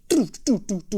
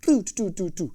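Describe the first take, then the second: First: Crisp mouth stick clicks; drum tick imitation. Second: Quick repeated mouth clicks; drum tick imitation. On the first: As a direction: tap it out like a drumstick. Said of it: "un tic-tic". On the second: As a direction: sound out the stick hitting the head. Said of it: "Vous voyez ce que je veux dire?". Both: Shown as a demonstration.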